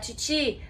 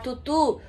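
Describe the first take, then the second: First: The vowel is a plain i sound. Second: The vowel is a plain u sound. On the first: "e alguém falar titi" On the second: "Se alguém falar tutu"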